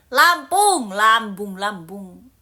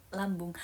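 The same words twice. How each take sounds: First: Emphatic shout. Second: Said in the usual way. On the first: Real, not acted. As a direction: shout the hometown out proudly. Insists loudly on her hometown.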